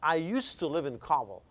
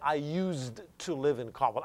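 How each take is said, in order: First: The d in 'used' is not pronounced. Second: The d in 'used' is clearly pronounced. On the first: The speaker calls it right. "you don't pronounce D. You just say used to, okay? So like you say" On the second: The speaker calls it wrong. "Don't say"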